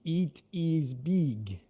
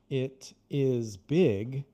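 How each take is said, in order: First: The vowels are a tense 'ee' sound. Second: The vowels are a short, lax 'ih' sound. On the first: The speaker calls it wrong. "If it were Portuguese, it would be it is big, which is why some people pronounce it that way when they shouldn't" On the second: The speaker calls it right. "there isn't I like we have in the in it is big"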